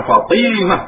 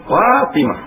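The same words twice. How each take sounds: First: Fatimah said a little slower, the Malay way to avoid; teacher marking Fatimah as wrong. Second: Fatimah with a proper Arabic t and long a; teacher giving the right Fatimah; correct Fatimah. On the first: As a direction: show Fatimah as the mistake. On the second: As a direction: say Fatimah the Arabic way, not the Malay way. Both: Shown as a demonstration. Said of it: "bukan Fatimah".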